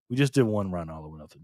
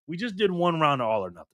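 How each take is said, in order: First: Lower, worn-out repeat; tired repeat. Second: Said in the usual way. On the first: Real, not acted. Exhausted streamer repeating the announcement to chat, lower and tired. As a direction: say it again, drained and low.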